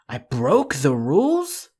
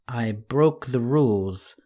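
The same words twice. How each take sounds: First: It sounds like a surprised, rising question. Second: The voice fades away, trailing off.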